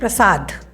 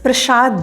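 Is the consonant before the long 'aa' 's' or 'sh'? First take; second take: s; sh. First: The second syllable starts with an 's' sound. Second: The second syllable starts with an 'sh' sound. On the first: The speaker calls it right. "दूसरा शब्द है प्रसाद" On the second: The speaker calls it wrong. "इसे लोग उर्दू लहजे में प्रसाद बोलते हैं"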